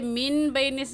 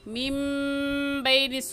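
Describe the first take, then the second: First: A clear n sound comes before the b. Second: A nasalized m sound comes before the b. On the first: The speaker calls it wrong. "इसे मिन बैनिस नहीं कहेंगे" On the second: The speaker calls it right. "बल्कि मीम बैनिस सुल्बी कहेंगे"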